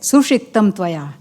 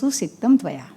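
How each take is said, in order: First: The first word has a retroflex 'sh' sound. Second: The first word has a dental 's' sound. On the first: The speaker is mocking with contempt. "there is a tone of contempt" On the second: The speaker sincerely appreciates the work. "there is an appreciation"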